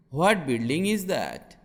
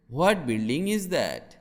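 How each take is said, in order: Both takes have the same delivery.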